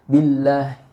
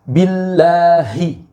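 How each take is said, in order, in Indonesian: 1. Bunyi h diucapkan dengan asal-asalan dan lemah. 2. Bunyi h diucapkan dengan jelas dan penuh. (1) "Jangan sekenanya saja" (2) "haknya ini harus jelas"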